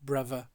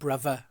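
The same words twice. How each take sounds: First: The middle consonant is a v sound. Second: The middle consonant is a v sound.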